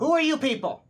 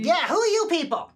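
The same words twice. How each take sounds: First: Suspicious guard voice. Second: Louder, higher demand; demanding guard. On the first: Guard NPC challenges party. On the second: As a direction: press them hard for an answer. Guard repeats challenge louder. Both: Acted.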